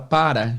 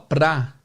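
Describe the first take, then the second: First: The word is said in full with two syllables. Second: The word is shortened to one syllable. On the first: This is the full written form. "a palavra para" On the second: This is how people usually say it. "geralmente o pessoal fala pra"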